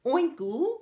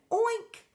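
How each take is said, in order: First: Loud, high "Oinku" with a stray oo on the end; pig's rising near-miss "Oinku"; botched oink. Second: High, rising "oink" ending cleanly on k; successful oink. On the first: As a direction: try oink but tack on an oo, "Oinku". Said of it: "said the pig". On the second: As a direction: land "oink" triumphantly, swooping upward. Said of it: "until she finally went oink". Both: A narrator's reading.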